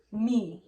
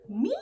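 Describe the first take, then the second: First: "Me" louder, without the sharp rise; "Me" punched as an indignant echo; emphatic repeat. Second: High rising mock-shocked question; disbelieving, pitch shooting up; incredulous. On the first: Retold or imitated. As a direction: land hard on "Me" in disbelief. Repeats it, louder, after questioning. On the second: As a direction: ask it as if wrongly accused. Acts out disbelief at accusation.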